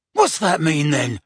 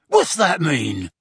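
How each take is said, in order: First: Yell. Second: Slower, louder angry yell. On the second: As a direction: snap it out violently. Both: A narrator's reading. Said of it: "yelled the Death Eater".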